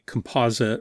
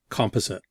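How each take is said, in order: First: It is pronounced the American way. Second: It is pronounced a non-American way. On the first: "I think they say composite" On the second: "rather than composite"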